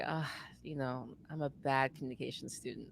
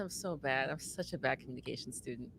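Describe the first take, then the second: First: A little deeper. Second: Tired, drained delivery; exhausted. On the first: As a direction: drop the voice a bit and drag it. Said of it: "probably a little deeper". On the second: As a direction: sigh it out like you're worn out. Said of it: "like I'm exhausted". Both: Shown as a demonstration.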